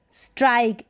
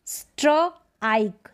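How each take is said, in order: First: स्ट्राइक run together as one syllable; स्ट्राइक with s-t-r joined smoothly; blended word. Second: स्ट्राइक split slowly into "stro" and "ike"; स्ट्राइक drawn out part by part; sounded out. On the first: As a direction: say स्ट्राइक whole, "strike", falling at the end. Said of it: "साथ में इनको पढ़ा जाएगा". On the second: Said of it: "साथ में इनको combine करके". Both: Shown as a demonstration.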